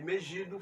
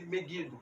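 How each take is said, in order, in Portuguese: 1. O g soa suave, como o s de measure. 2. O g soa duro, como o g de go. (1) "ao invés de Megido" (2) "fala-se Megido"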